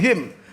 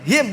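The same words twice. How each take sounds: First: The final nasal sound is held long. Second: The final nasal sound is kept short. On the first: The speaker calls it wrong. "bukan him" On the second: The speaker calls it right. "gunahnya nggak boleh lama lama"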